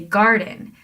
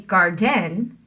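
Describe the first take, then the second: First: The stress is on the first syllable. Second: The stress is on the second syllable. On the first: The speaker calls it right. "You say garden. That means we're putting the stress on gar" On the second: The speaker calls it wrong. "You don't say garden, that doesn't sound right"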